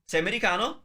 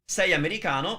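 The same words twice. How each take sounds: First: The voice rises at the end. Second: The voice falls at the end. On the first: It asks a question. "that's a question" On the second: It states a fact. "that's a statement"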